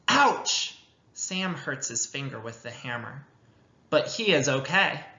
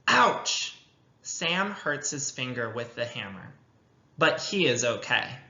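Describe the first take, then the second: First: It is read smoothly, with expression. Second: It is read choppily, without expression.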